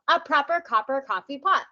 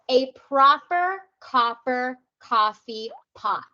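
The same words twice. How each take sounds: First: It is said at a faster pace. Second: It is said at a slower pace.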